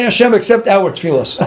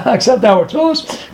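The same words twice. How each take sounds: First: Said in the usual way. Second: Questioning repeat with a rising end; scoffing question, rising on tefillos; incredulous echo. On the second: Acted. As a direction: echo it with a laugh, as if absurd.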